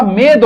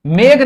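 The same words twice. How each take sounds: First: मेद ending in a dental dh sound; correct final dh. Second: मेघ ending in a breathy g sound, gh; wrong final gh. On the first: Teacher correcting students, मेद ending in dental dh. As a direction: say मेद with the tongue on the teeth at the end. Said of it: "मेद होता है". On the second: Teacher showing students the mistaken word, मेघ ending in gh. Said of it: "मेघ नहीं होता". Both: Shown as a demonstration.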